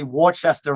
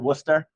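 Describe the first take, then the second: First: Pronounced the way an out-of-stater says it. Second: Pronounced the way locals say it. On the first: The speaker is not from the area. The speaker calls it wrong. "he goes, uh, five fifty Worcester Road" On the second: The speaker is from the area. The speaker calls it right. "we pronounce it Worcester"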